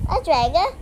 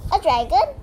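First: Said in the usual way. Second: Yelped. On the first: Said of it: "said the shepherd". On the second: A narrator's reading. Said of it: "yelped the wife".

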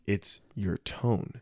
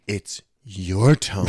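First: Slow, quiet retort; telling wife off. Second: Slow mock wife voice, echoing back; mimicking his wife. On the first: Retold or imitated. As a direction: lay it out slowly to her. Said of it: "I was like". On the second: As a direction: throw it back at him slowly in her voice. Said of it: "She's like".

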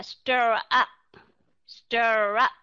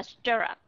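First: "stir up" with "up" given its full vowel; clear second syllable. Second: "stir up" with "up" reduced to a schwa; schwa in second syllable. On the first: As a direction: separate "stir up" so "up" sounds out fully. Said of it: "Hà Cát không đọc là". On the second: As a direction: run "stir up" together, second syllable light. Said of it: "nó là schwa". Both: Shown as a demonstration.

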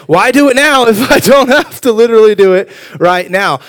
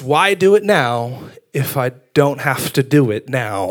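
First: Loud, high-pitched exasperated plea; hammed-up procrastinator's outcry; mock protest. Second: Said in the usual way. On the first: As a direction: protest it loudly, pitch jumping up. Repeats motto in mock protest.

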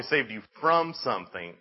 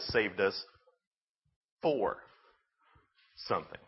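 First: "from" punched within the phrase; emphatic "from", running straight into "something"; stress on "from". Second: "for" isolated by long pauses; pause, say "for", pause, then lower "something"; stress on "for". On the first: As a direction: hit "from" harder than "something". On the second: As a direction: standalone "for", then a soft, low "something". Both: Real, not acted. Repeats from versus for contrast.

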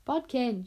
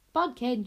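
First: Shriek. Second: Loud, sharp call of his name; alarmed shriek at sleeping Bodkin. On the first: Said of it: "shrieked Wish". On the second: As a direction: snap him awake with a shriek. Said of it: "shrieked the princess". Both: A narrator's reading.

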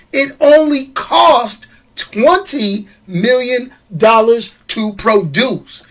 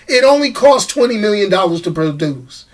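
First: Slow, deliberate delivery of the figures; slow emphasis. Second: Said in the usual way. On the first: Real, not acted. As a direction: spell out the cost word by word. Slow emphatic take, then repeated plainly.

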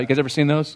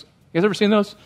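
First: Said in the usual way. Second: You guys ever seen those asked again higher, coaxing an answer; higher repeat. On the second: Real, not acted. Repeats question higher to crowd.

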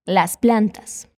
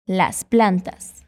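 First: "Las plantas" said slowly, lifting at the end; slow model, rising. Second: "Las plantas" stretched out slowly, ending with a fall; slow model phrase. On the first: Teacher repeating "Las plantas" slowly with a rising tune. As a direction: drawl "Las plantas" gently up at the close. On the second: Teacher modelling "Las plantas" slowly, falling at the end. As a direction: spell out "Las plantas" slowly for the learner to copy. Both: Shown as a demonstration. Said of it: "Fala comigo".

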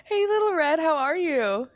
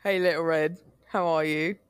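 First: Plain. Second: Distant voice, like through a wall; from another room. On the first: Acted. Host greets guest brightly. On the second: Pretend. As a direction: call out from the next room. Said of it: "hear his voice in the other room".

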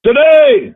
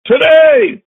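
First: High, loud shout of the word; shouted proclamation. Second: Shouted proclamation. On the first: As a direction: cry it out to the giant. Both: Acted.

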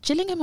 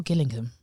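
First: Gillingham begun with a J sound; soft G in Gillingham. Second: Gillingham begun with a hard G. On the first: Co-host checking a name's pronunciation, soft G in Gillingham. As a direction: say Gillingham as "Jillingham". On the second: Co-host offering the other pronunciation, hard G in Gillingham. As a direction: say Gillingham with G as in "give". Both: Shown as a demonstration.

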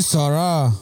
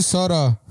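First: "Sara" slow and higher, final a drawn out; mock correct pronunciation. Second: Said in the usual way. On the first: Imitating girl at the microphone, mock-teacherly "Sara". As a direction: drag "Sara" out as a condescending correction. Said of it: "se dice Sara". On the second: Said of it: "No se dice Sara".

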